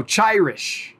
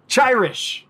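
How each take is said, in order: First: Chirish said slowly, CHI like chai, then rish; trying the name. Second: Chirish said higher, CHI like chai; trying the name again. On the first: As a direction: sound out Chirish carefully. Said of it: "it's C H I Rish". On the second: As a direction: test Chirish on a higher pitch. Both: Shown as a demonstration.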